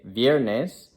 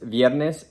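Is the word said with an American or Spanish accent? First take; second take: American; Spanish. First: It is said with an American English accent. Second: It is said with a native Spanish accent. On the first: "I'm trying to do more of an Americanized Spanish with less accent" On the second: "That would be kind of more of a, a Spanish accent"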